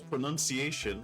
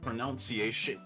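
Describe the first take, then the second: First: The second syllable sounds like 'nun'. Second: The second syllable sounds like 'noun'. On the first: The speaker calls it right. "We say it's pronunciation" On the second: The speaker calls it wrong. "but not pronunciation"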